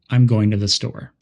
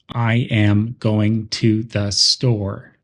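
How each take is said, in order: First: The small words are quick, soft and reduced. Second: Every word gets equal, full emphasis. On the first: The speaker calls it right. "a fluent speaker would say" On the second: The speaker calls it wrong. "with equal emphasis on every word"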